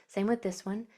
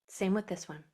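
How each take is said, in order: No difference in how they are said.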